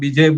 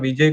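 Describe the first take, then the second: First: The word begins with a b sound. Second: The word begins with a v sound. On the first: "पूर्व भारत में जाएँगे तो ... बिजय बोलेंगे" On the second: "विजय को"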